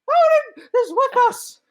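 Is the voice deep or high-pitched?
high-pitched. The voice is high-pitched. This is how the line actually sounded. "had such a high pitched voice"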